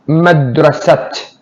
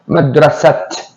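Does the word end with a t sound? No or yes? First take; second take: yes; yes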